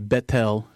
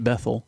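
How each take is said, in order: First: The middle consonant is a hard T sound. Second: The middle consonant is a soft th sound. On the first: The speaker calls it right. "they would probably say Bethel" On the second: The speaker calls it wrong. "not Bethel"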